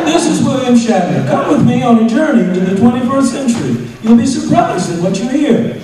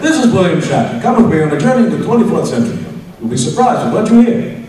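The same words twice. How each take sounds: First: High, loud sing-song narration; mocking the director's read. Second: Mildly hearty read of the Shatner intro; a touch of jolly cheer; lightly hammed-up hearty narrator; hail fellow well met. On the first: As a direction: read it like a clumsy amateur, higher and louder. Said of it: "the guy takes the bait". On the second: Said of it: "he does it again, more Hail Fellow Well Met".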